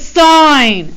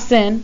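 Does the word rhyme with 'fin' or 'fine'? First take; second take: fine; fin. First: The vowel is long, like in 'fine'. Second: The vowel is short, like in 'fin'. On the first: The speaker calls it right. "It's sine" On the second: The speaker calls it wrong. "This is not sin. Don't say sin. It makes you sound a little uneducated"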